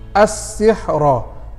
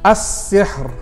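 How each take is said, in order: First: The word ends with a short a vowel. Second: The word ends on a light r sound. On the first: The reader carries on without stopping. "sepatutnya bunyinya kalau tidak berhenti" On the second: The reader stops at this word. "oleh karena kita berhenti, dua-dua dikasih baris mati"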